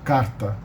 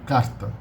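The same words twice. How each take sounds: First: The r is a single quick tongue tap. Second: The same.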